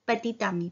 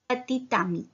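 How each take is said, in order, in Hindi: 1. t का उच्चारण होता है और वह अगले शब्द से जुड़ता है। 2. t का उच्चारण होता है और वह अगले शब्द से जुड़ता है।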